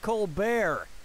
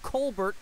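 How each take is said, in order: First: The ending is said as 'bair' without a t. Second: The ending is said as 'bert' with a t. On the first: This is the name's changed pronunciation. "to Colbert" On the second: This is the name's original pronunciation. "changed the pronunciation of his name from Colbert"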